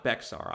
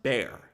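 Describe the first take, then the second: First: "Bexar" as two syllables, BEK-sar, with the x sounded; spelling pronunciation. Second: "Bear" as one syllable, like the animal, with the x silent; local pronunciation. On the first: Host showing viewers the mistaken reading, "Bexar" as BEK-sar. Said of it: "not Bexar". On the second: Host showing viewers how the county is pronounced, "Bear" in one syllable. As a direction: say "Bear" to rhyme with "air". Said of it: "it is pronounced Bear". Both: Shown as a demonstration.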